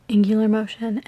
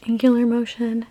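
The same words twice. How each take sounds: The two takes are said the same way.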